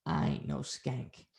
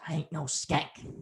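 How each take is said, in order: First: Low, slow, hushed last word; retold menacing retort. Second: Quick, hushed mock protest; retold indignant protest. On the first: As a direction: imitate her cold, drawn-out retort. Retold last retort before killing him. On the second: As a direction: imitate her, softly objecting. Retold addict's protest to insult.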